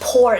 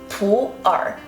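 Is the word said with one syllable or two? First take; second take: one; two. First: The word is one syllable, like pour. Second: The word has two syllables, pu and er. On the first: The speaker calls it wrong. "not pour tea" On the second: The speaker calls it right. "the correct pronunciation of this tea is pu'er"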